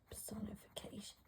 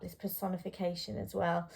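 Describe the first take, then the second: First: Whisper. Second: Said in the usual way. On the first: Real, not acted. Teacher murmuring the term to herself mid-lesson, whispered. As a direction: whisper "personification" softly to yourself, no voice.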